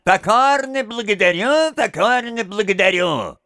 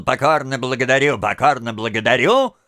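First: A lightly voiced nasal mock thanks; higher, nasal "Покорно благодарю"; nasal twang. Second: Fast, lightly mocked nasal "Покорно благодарю"; a hint of nasal mockery; nasal twang. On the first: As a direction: mimic the little freak's nasal whine. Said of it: "мерзким голосом гнусавит". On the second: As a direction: rattle off the freak's whiny thanks. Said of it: "малыш всё ещё гнусавил".

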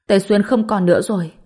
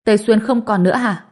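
First: Understated tearful news; mildly distressed, falling statement; choked-up grief. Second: Higher, startled question; raised, astonished echo; stunned disbelief. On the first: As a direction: deliver it with a touch of grief. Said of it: "nghẹn ngào đến mức nói không thành lời". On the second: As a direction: ask it back in shocked disbelief. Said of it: "Kim Phi sừng sốt". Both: A narrator's reading.

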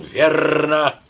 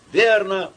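First: Retold shout. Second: Put-on drunken shout. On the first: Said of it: "я не выдержал и крикнул". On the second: A narrator's reading.

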